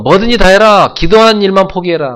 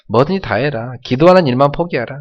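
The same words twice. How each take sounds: First: Much higher, louder mocking order; devil's loud taunt. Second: A touch higher mocking dare; mildly taunting devil. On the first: Preacher voicing the devil at full force, high loud taunt. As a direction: bellow the devil's dare to quit praying. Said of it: "마귀는요". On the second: Preacher voicing the devil, mild higher taunt. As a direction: tease them to drop prayer. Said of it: "조롱합니다".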